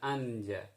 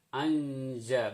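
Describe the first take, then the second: First: The n sound is pronounced clearly. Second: The n sound is hidden and nasalized. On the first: The speaker calls it wrong. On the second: The speaker calls it right.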